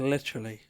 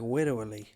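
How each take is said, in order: First: The l and r sounds are pronounced clearly. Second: The l and r sounds are softened into w-like sounds. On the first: "instead of literally" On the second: "they have that thing where they go like widowy"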